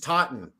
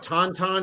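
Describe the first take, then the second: First: It is pronounced in the short local way. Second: It is pronounced letter by letter, as spelled. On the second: "Instead of"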